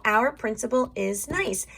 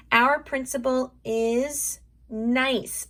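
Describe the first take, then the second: First: Said in the usual way. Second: Slow, drawn-out sentence; slow sounding-out for young writers; stretched out. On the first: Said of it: "so here we go". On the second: Shown as a demonstration. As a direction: say it slowly, stretching nice. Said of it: "let's stretch that out".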